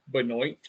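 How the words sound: The name is said with an American pronunciation.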